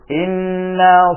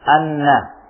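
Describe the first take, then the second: First: The word begins with an 'i' vowel. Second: The word begins with an 'a' vowel. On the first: This is a reading used by some reciters. "Sebahagian qurra mereka membaca inna" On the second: This is the widely known reading. "dengan hamzah yang di fathah"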